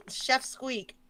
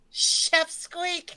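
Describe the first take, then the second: First: Said in the usual way. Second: Squeaky high-pitched cartoon voice. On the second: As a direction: say it in a tiny squeak. Silly name said twice.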